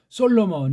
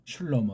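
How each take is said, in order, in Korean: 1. 이 이름은 솔로몬이라고 발음해요. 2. 이 이름은 슐로모라고 발음해요. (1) "이건 우리 소리가 아니고 서양어법의 일본 소리" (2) "가장 정확한 발음이에요"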